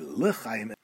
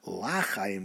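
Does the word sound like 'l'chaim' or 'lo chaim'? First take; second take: l'chaim; lo chaim. First: The word is said clearly as l'chaim. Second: The word sounds close to lo chaim. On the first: It means to life. The speaker calls it right. "say l'chaim" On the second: It could be heard as no life. The speaker calls it wrong. "not l'chaim, which could be mistaken, chas v'shalom, for lo chaim"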